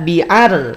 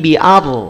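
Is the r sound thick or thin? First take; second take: thin; thick. First: The r is light and thin. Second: The r is heavy and thick. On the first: The speaker calls it wrong. "Tidak bi'ar" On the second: The speaker calls it right. "tapi bi'ar. Naikin pangkal lidahnya"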